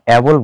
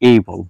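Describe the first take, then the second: First: The word begins with a short 'a' sound. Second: The word begins with an 'ay' sound. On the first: The speaker calls it wrong. "এটাকে আমরা অ্যাবল বলবো না" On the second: The speaker calls it right. "এটাকে বলবো আমরা এইবল"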